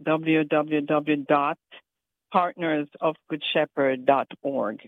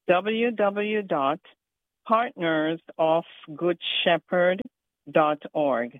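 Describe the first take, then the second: First: It is said at normal speed. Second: It is said slowly and carefully.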